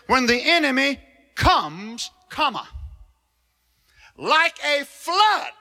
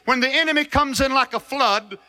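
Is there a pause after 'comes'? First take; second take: yes; no. First: There is a break after comes. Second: It runs on without a pause after comes.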